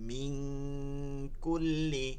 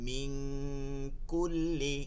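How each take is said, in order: No difference in how they are said.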